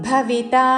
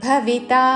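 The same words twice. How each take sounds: No difference in how they are said.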